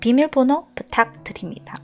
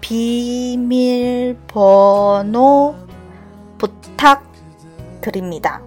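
First: It is said at normal speed. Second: It is said more slowly.

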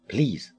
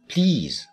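First: The vowel is short. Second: The vowel is long. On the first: The speaker calls it wrong. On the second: The speaker calls it right.

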